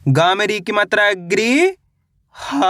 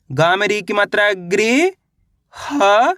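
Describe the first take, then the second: No difference in how they are said.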